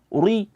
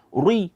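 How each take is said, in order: No difference in how they are said.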